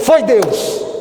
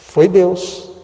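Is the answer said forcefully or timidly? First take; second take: forcefully; timidly. First: It is said forcefully and emphatically. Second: It is said timidly and quietly.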